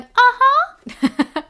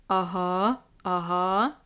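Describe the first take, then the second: First: Very high, loud laughing "Uh-huh"; high squeaky agreeing. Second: Low "Uh-huh" pitched down; low agreeing. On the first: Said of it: "I also wasn't going". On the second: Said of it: "I wasn't going". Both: Shown as a demonstration.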